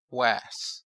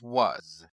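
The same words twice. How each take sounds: First: The vowel is the short a sound. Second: The vowel is not the short a sound. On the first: This is how the spelling rules predict it. "This sequence should say was. ... The A should say A. This vowel should be short" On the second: This is how the word is actually said. "But you and I know that it says was"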